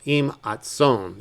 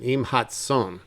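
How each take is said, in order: First: "hatson" said as "atson" with no h sound; modern dropped h. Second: Said in the usual way. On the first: Shown as a demonstration. Teacher shows modern Hebrew speakers dropping the hey. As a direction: drop the h in "hatson", modern style. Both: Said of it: "they rarely even pronounce the, uh, the hey".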